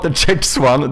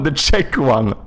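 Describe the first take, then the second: First: "Czechs" quoted with a hard "teks" and a final s, slightly higher and slower; mock the slip by saying "the Czechs one" back; repeating the wrong form. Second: "Czech" said as "chek" with no s, a falling close; correct pronunciation. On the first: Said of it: "not the Czechs one". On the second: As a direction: set it right with "The Czech one". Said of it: "The Czech one, not the Czechs one". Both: Shown as a demonstration.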